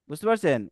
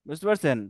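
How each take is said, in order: The two takes are said the same way.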